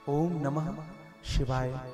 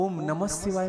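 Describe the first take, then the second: First: The opening Om is slow and drawn out. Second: The opening Om is short and hurried. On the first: The speaker calls it right. "ओम आराम से कहिएगा" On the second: The speaker calls it wrong. "मत कहिए"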